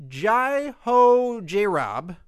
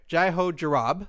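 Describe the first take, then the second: First: Careful name. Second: Fast name. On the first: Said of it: "I've been practicing all day". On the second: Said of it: "say that a little fast now". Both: Shown as a demonstration.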